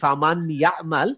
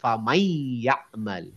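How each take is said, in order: First: The n sound is pronounced clearly before y. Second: The n sound merges into the following y. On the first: The speaker calls it wrong. "আমি যদি এখন ভুল পড়ে ফেলি" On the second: The speaker calls it right. "তাজউইদ রুলস যদি আমরা জানি, তখন আমাদেরকে এইভাবেই পড়তে হবে"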